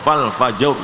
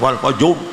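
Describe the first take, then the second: First: The lips are rounded only moderately. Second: The lips are rounded too strongly. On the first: The speaker calls it right. "sudah cukup" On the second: The speaker calls it wrong. "jangan kemoncongan, jangan wal fajr"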